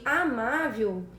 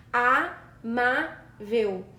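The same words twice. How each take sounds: First: Said in the usual way. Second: "Amável" slowly split into syllables, stress on the second-to-last. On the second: Shown as a demonstration. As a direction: spell out "Amável" in slow, separate syllables. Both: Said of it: "Basta separar as sílabas".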